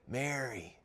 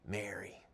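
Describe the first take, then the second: First: The name is said louder. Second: The name is whispered softly.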